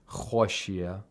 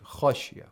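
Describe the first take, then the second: First: The kh sound is made overly heavy and full. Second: The kh sound is made only moderately heavy. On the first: The speaker calls it wrong. "you should not exaggerate the تَفْخِيم of خَ. You shouldn't say خَشِيَ. خَشِيَ is incorrect" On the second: The speaker calls it right. "we need the تَفْخِيم. But not too much"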